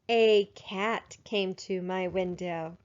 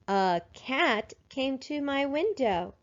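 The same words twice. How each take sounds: First: The first word is a long 'ay' sound. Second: The first word is a weak 'uh' sound. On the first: The speaker calls it wrong. "That sounds better than" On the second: The speaker calls it right. "We code it with a schwa. We make sure that we read like we talk"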